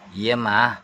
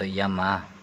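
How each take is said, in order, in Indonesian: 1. Diucapkan dengan nada tinggi dan keras. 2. Diucapkan dengan nada tenang dan lembut. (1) "dengan nada atau intonasinya yang tinggi" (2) "Kamu jawabnya sebenarnya baik"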